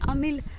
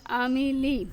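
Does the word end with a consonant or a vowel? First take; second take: consonant; vowel. First: The word ends on a silent consonant. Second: The word ends with a short i vowel. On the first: The reader stops on this word. "अगर इसके ऊपर वक्फ हो रहा होगा तो फिर हम इसको पढ़ेंगे आमिल" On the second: The reader continues past this word. "आमिली सिंपली वर्ड पढ़ेंगे अगर वक्फ नहीं होगा तो"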